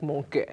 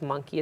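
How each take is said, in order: First: MONKEY with a rounded MON and a short, swallowed end; dad's accented monkey. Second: Said in the usual way. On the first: Retold or imitated. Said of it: "when my dad says monkey, it's like". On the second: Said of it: "when my dad says monkey, it's like monkey".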